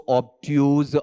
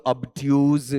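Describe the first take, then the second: First: ऑब्ट्यूज with a full "aw" start, "awb-tyooz"; variant pronunciation. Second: ऑब्ट्यूज with a short neutral "uh" start, "uhb-tyooz"; another variant pronunciation. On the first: Teacher listing how others pronounce the word, "aw" start. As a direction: say ऑब्ट्यूज opening wide on "aw". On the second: Teacher listing how others pronounce the word, weak start. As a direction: say ऑब्ट्यूज with a weak first vowel. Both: Shown as a demonstration. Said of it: "ऐसे अलग-अलग उच्चारण करते हुए".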